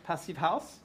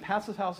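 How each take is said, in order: First: It is pronounced the German way. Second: It is pronounced the American English way. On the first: "This is the European German way of saying it" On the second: "is the way we say it in the U.S"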